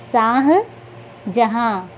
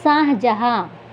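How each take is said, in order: First: Shahjahan very slowly, split into शाह and जहाँ; Shahjahan stretched, halting between its halves; broken into parts. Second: Said in the usual way. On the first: Shown as a demonstration. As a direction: sound out Shahjahan in two parts with a long pause. Word repeated broken into parts.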